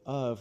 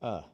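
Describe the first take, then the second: First: The word is said in full. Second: The word is reduced to a short vowel. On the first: "instead of of" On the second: "we're going to say uh"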